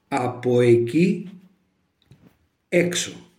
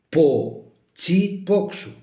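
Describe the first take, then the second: First: Standard Greek form, with all vowels and a k. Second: Dialect form, dropped vowels and ts for k. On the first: "έτσι ομιλούμε πλέον σήμερα" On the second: "Ένας κουνιώτης θα το έλεγε"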